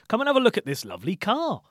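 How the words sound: The pitch goes up on 'car'.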